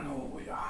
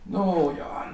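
First: The second "nåja" dropped to a whisper; the husband repeating it to himself, whispered. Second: Said in the usual way. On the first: Acted. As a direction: let "nåja" die away to a whisper. Husband brooding over the letter.

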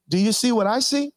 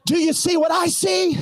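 First: Said in the usual way. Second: High, shouted question; shouted preaching. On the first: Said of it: "He says". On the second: Acted. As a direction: fling the question at the crowd.

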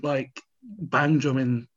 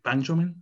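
First: Said in the usual way. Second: "bang drumming?" rising like a question; questioning rise. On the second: Real, not acted. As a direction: lift the end of "drumming" in doubt. Asks which word order is right.

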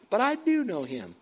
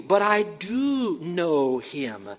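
First: Firm, higher "do"; stress on DO. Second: Slow, insistent, elongated "do"; stress on DO. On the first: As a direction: DO pitched up, then falling away. Emphatic contradiction in scripture reading. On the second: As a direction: DO hugely stretched, rising then falling. Repeats verse, heavily stressing one word. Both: Acted.

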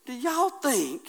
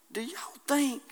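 First: Said in the usual way. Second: Hushed, breathy aside to the church; whisper. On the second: Acted. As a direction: lean in and whisper the question. Preacher drops to whisper.

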